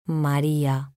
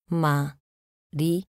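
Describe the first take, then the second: First: Said in the usual way. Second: "María" split as Ma, rí, a; syllable by syllable. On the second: Shown as a demonstration. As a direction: say "María" with a pause after each syllable. ("María" separado en sílabas: ma, rí, a) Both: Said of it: "Separación de sílabas".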